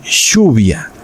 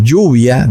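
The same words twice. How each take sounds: First: Lluvia said shuvia, with a sh sound; Argentine lluvia. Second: Lluvia with a clear y sound, Peruvian style. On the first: Pastor showing the Argentine lluvia, sh sound. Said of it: "en Argentina van a decir lluvia". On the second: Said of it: "dicen así como se oye". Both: Shown as a demonstration.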